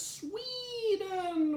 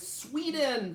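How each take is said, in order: First: "Sweden" stretched into a long, high "Sweeeden"; Sweeden with a long E. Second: Said in the usual way. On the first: Retold or imitated. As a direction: draw out the E in "Sweden" up high, like a misspelling. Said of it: "with an extra E".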